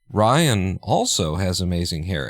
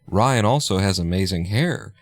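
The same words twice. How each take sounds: First: The stress falls on Ryan. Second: The stress falls on amazing hair.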